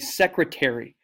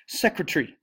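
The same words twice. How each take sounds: First: The word is said in an American accent. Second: The word is said in a British accent. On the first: This is how Americans say it. "Americans say secretary" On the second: This is how British people say it. "but in British, they say secretary"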